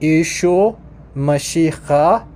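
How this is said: It is said with the Eastern Syriac pronunciation. "in Eastern, it's pronounced"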